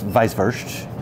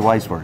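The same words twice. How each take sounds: First: The word is said with a German pronunciation. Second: The word is said with an American pronunciation. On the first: This is how it is said in Germany. "if you're going to say it in Germany" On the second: This is how locals here say it. "We say Weisswurst"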